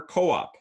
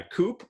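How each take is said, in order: First: "co-op" as KOH-op; two-syllable pronunciation. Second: "coop" rhyming with "loop"; one-syllable pronunciation. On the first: Lecturer offering the other reading, two-syllable "co-op". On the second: Lecturer quizzing on heteronyms, one-syllable "coop". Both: Shown as a demonstration. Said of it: "can be pronounced in two different ways".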